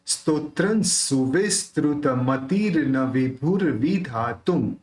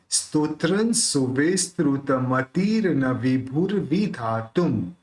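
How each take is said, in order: First: विभुर with a clear aspirated भ, measured pace; slow model recitation repeated. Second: Careful measured Sanskrit with विभुर joined; slow model recitation. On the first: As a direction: recite स्तोत्रं सुविस्तृत मतिर न विभुर विधातुम again, slowly and clearly. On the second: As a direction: recite स्तोत्रं सुविस्तृत मतिर न विभुर विधातुम slowly, syllable by syllable. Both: Shown as a demonstration. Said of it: "ऐसा कैसे?".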